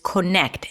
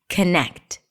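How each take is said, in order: First: The first vowel is a full O sound. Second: The first vowel is reduced to a schwa. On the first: "our default pronunciation is connect" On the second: "Or even better, it's a schwa"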